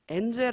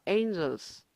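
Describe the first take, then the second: First: It is said with Korean-style sounds, like enjel. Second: It is said with English sounds, ending in -s. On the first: The speaker calls it wrong. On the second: The speaker calls it right.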